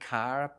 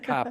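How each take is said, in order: First: The final R sound is clearly pronounced. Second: The final R sound is dropped. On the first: "I'm pronouncing the word car very pedantically" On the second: "we tend not to pronounce the R, we say a car park"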